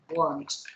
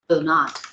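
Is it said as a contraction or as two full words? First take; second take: contraction; full words. First: The words are contracted into one syllable. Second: Two full words are said separately.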